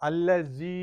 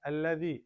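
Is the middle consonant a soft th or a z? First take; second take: z; soft th. First: The middle consonant is a buzzing z sound. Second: The middle consonant is a soft th sound. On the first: The speaker calls it wrong. "அல்ல ஜி அப்படின்னு உச்சரிக்க எவ்வளோ கேட்பீங்க" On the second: The speaker calls it right. "அது வந்து சாஃப்டா வரணும் அல்லதி சாஃப்ட்"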